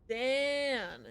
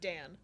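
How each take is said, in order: First: The vowel is drawn out long. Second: The vowel is short and plain. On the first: The speaker calls it right. "the way you pronounce it is Dan" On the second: The speaker calls it wrong. "instead of"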